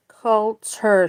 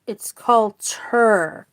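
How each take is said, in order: First: Said in the usual way. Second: "culture" said slowly, every sound clear; careful full culture. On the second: Shown as a demonstration. Teacher correcting slang to the full word, slow and careful. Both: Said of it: "but that's just slang".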